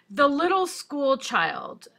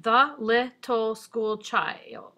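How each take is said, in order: First: Said in the usual way. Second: Put-on "The little school child" slowly split into separate syllables. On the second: Shown as a demonstration. Teacher counting haiku syllables, "The little school child" said syllable by syllable. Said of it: "counting syllables for a second".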